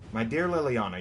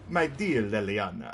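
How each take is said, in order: First: It is read in the speaker's normal voice. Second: It is said in an imitation of Zevran's voice.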